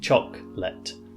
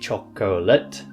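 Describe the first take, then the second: First: A middle syllable is cut out. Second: Every syllable is pronounced fully. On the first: The speaker calls it right. "we just say chocolate" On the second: The speaker calls it wrong. "So we don't say chocolate"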